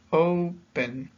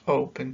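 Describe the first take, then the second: First: "O-pen", drawn out with a higher, stressed O; split into two syllables. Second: Said in the usual way. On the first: Shown as a demonstration. Teacher counting dos sílabas for learners, "Open" broken into stressed O, then pen. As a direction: say "Open" in two separate beats, O strongest. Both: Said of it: "tenemos dos sílabas".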